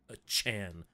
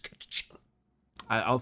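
First: The ending sounds like the anime suffix chan. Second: The ending does not sound like anime chan. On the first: The speaker calls it wrong. "is not a Chan, like you're talking about anime" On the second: The speaker calls it right. "it's Catachan"

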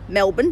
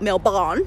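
First: The second syllable is reduced to a weak 'bun' sound. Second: The second syllable is said as a full 'born' sound. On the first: This is how Australians say the city's name. The speaker calls it right. "that is how you say it, Americans. It's Melbourne" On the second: This is how Americans say the city's name. The speaker calls it wrong. "not Melbourne"

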